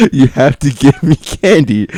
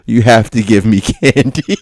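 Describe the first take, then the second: First: Slower, insisting through laughter; laughing repeat. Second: Said in the usual way. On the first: Retold or imitated. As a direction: repeat the demand while cracking up. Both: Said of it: "It's a rule".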